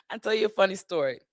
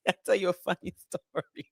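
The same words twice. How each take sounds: First: Said in the usual way. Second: Words breaking up into giggles; laughing. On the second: Real, not acted. About to tell viewers a funny story, laughing. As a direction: laugh through the words, softer.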